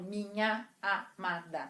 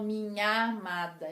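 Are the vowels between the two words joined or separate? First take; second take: separate; joined. First: The final and initial a sounds stay apart. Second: The final and initial a sounds merge into one. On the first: The two syllables count as two. The speaker calls it wrong. "Eu não falo minha amada" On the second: The two syllables count as one. The speaker calls it right. "quando eu pronuncio, eu falo"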